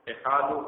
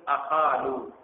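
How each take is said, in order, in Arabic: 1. تبدأ الكلمة بالحركة 'i'. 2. تبدأ الكلمة بالحركة 'a'. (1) "وكسر همزة المتكلم" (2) "بالفتح وهو القياس"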